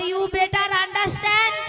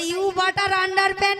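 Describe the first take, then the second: First: It ends sounding like 'better understand'. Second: It ends sounding like 'butter under pant'. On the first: The speaker calls it right. "বলো you বেটার আন্ডারস্ট্যান্ড" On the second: The speaker calls it wrong. "ওটা you বাটার আন্ডার প্যান্ট নয়"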